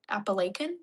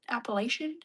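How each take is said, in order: First: Appalachian with a k before the last syllable, questioning; k pronunciation. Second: Appalachian with a sh before the last syllable, questioning; sh pronunciation. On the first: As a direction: try Appalachian as "appa-LAY-kən?". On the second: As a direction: try Appalachian as "appa-LAY-shən?". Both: Shown as a demonstration. Trying k against ch sound.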